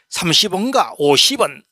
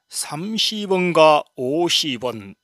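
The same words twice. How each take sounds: First: It is said in a Gyeongsang dialect accent. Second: It is said in a Seoul standard accent.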